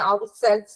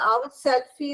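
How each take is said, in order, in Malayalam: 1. ഈ വാക്ക് അവസാനിക്കുന്നത് 'selves' ശബ്ദത്തോടെയാണ്. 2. ഈ വാക്ക് അവസാനിക്കുന്നത് ചേർത്ത 'fee' ശബ്ദത്തോടെയാണ്. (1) "അവർ സെൽസ് എന്നാണ് കേട്ടോ" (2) "അവർ സെൽഫി എന്നല്ല കേട്ടോ മോനെ"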